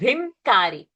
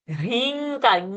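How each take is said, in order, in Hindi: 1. k से पहले की नासिका ध्वनि m है। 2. k से पहले की नासिका ध्वनि ng है। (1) "it's not rimkari" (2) "the anuswara will become na"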